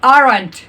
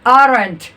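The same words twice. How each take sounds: Both takes have the same delivery.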